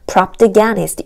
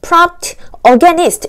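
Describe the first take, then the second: First: The final sound runs into the next word. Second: The two words are said separately, not linked. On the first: The speaker calls it right. "요렇게 연음이 되면서" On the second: The speaker calls it wrong. "요런 소리가 아니라요"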